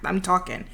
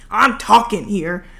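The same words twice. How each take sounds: First: Said in the usual way. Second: "talking" drawn out and louder; playfully insist, leaning hard on "talking"; mock protest. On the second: Vlogger excusing all the yapping to viewers, mock protest on "talking".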